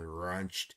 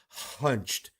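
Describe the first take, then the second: First: The word starts with an R sound. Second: The word starts with an H sound. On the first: The speaker calls it wrong. "A lot of people make an R sound" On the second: The speaker calls it right. "but hunched is"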